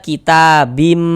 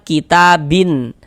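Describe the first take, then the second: First: The word ends with an m sound. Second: The word ends with a clear n sound. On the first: The speaker calls it right. "tapi kita baca kitabim" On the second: The speaker calls it wrong. "Jangan kita baca kitabin"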